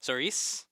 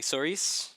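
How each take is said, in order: First: The name ends with a 'ris' sound. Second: The name ends with a 'ris' sound.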